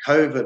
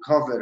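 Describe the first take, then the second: First: "covid" said COH-vid, long O; first syllable of "covid" rhymes with so. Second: "covid" said COV-id, short O; first syllable of "covid" like the start of coffee. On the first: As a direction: say "covid" with the vowel of go. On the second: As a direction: say "covid" with the vowel of hot. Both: Shown as a demonstration. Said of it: "pronounce it covid or covid".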